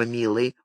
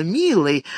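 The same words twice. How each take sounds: First: "милый" dropped low and soft with a slight rise; polite prompt. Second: "милый" lightly crooned, falling and sweet; sugary sing-song. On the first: Hostess politely directing Santo, soft "милый". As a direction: tack on "милый" softly and politely. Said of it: "Абигайль вежливо подсказала". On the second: Hostess cooing "милый" at Santo, sugary. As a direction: croon "милый" with a touch of syrup. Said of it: "приторно пропела Абигайль". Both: A narrator's reading.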